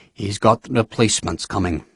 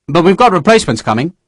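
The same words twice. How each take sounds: First: Softer, dry mocking repeat; weary sarcastic echo. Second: Said in the usual way. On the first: A narrator's reading. General echoes Sharp with weary sarcasm, soft. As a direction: echo him wearily. Nairn repeats with eyes closed.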